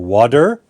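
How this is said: The word is said in a Canadian accent. "in English Canada, we would say water"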